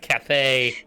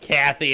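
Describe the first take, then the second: First: The name sounds like Cathay, ending in 'ay'. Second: The name sounds like the first name Kathy. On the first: The speaker calls it right. "it's Cathay" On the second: The speaker calls it wrong. "It's not Kathy"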